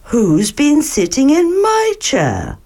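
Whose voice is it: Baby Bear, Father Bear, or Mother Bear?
Mother Bear. It is said in Mother Bear's voice.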